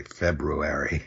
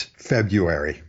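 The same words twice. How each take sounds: First: "February" said carefully as FEB-roo-airy; self-conscious full R. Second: "February" said as FEB-yoo-airy; without first R. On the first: Showing self-conscious speech, "February" as FEB-roo-airy. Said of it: "if you're being self-conscious about it". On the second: Giving the dominant pronunciation, "February" as FEB-yoo-airy. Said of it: "without the first R". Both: Shown as a demonstration.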